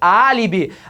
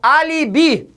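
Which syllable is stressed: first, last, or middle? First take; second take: first; last. First: The stress is on the first syllable. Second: The stress is on the last syllable. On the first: The speaker calls it right. "A sílaba forte é a terceira de trás para frente" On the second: The speaker calls it wrong. "ou eu falo alibi?"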